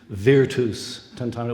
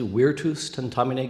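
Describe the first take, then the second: First: It uses the medieval v pronunciation. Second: It uses the classical Latin pronunciation. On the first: "that sloppy medieval v" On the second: "Do we pronounce it classically"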